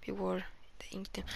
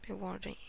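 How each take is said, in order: First: Fast, hushed whispered warning; spooky whisper. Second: Said in the usual way. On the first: Shown as a demonstration. Player rereading the warning to viewers as a spooky whisper. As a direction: whisper it like a creepy secret. Reading the in-game objective.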